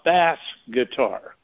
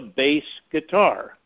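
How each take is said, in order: First: The word 'bass' rhymes with 'mass'. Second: The word 'bass' rhymes with 'face'. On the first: It is a machine's misreading of the spelling. The speaker calls it wrong. "not a bass guitar, like AI thinks it is" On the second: It names the low-pitched musical instrument. The speaker calls it right. "we know it's a bass guitar"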